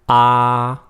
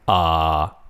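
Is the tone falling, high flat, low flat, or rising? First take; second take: high flat; low flat. First: The pitch stays high and level. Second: The pitch stays low and level. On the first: "The first one is a high flat tone" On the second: "Third one is low flat"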